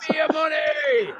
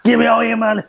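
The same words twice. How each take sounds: First: High cartoon villain shout. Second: Villain voice. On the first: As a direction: demand the money like a greedy villain. Mock villain demands money. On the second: Pretend. Joining the villain bit.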